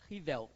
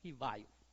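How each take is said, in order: First: The name is said the way Lyon says it. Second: The name is said the way Paris says it. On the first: "em Lyon se pronuncia Rivel" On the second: "em Paris se pronuncia Rivaio"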